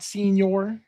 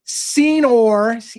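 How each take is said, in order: First: The word sounds like English senior. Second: The word sounds like Spanish señor. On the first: The speaker calls it wrong. "not senior" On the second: The speaker calls it right. "Senor, Senor, not senior"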